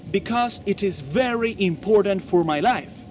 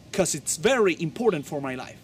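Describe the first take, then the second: First: BECAUSE in full, "bi-kos", and IT IS uncontracted; careful full BECAUSE for learners; full form. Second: 'CAUSE as one syllable, "kos", running into IT'S; contracted form. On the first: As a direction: say BECAUSE with both syllables. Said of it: "Y ahí utilizaste la forma". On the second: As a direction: drop the first syllable, just 'CAUSE. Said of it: "la forma de modismo". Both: Shown as a demonstration.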